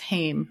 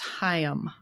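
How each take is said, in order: First: The name is not said like 'L'Chaim'. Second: The name is said like 'L'Chaim'. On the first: The speaker calls it wrong. "I thought it was Haim" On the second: The speaker calls it right. "but I guess it's Haim"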